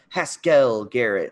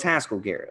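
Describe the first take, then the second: First: Haskell is stressed on its second syllable. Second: Haskell is stressed on its first syllable. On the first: The speaker calls it wrong. "kept putting the emphasis on L" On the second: The speaker calls it right. "no, it's Haskell Garrett"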